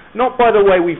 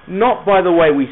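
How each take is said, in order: Both takes have the same delivery.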